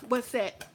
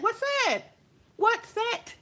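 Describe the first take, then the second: First: Said in the usual way. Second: "What set?" thrown high and sharp; mock pressing "What set?"; mocking challenge. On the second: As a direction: needle her with "What set?" pitched up. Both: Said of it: "I pulled her fucking card".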